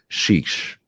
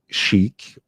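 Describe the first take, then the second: First: It is pronounced like the word shish. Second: It is pronounced like the word chic. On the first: The speaker calls it right. "that's called" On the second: The speaker calls it wrong. "it's not chic or sheikh"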